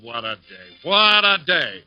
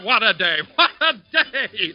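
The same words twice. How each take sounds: First: It is said with a tired, glum groan. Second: It is said in a bright, cheerful tone. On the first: The man has not had breakfast yet. "He opens one eye and groans" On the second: The man has just had a tasty breakfast. "but notice the difference"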